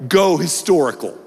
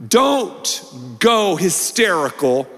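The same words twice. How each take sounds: First: The word historical set apart and landed with a drop; steady payoff of the motto; weight on historical. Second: Drawn-out punchline; slow deliberate preacher's motto; slow emphatic slogan. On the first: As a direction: land the answer calmly. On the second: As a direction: spell it out slowly so they can write it down. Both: Shown as a demonstration. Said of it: "something you might want to write down".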